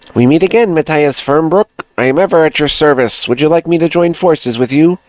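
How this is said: It is read in a female-sounding character voice.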